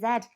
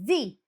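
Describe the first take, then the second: First: The letter is said the British way. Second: The letter is said the American way. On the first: "we're Z" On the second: "whereas Americans say Z"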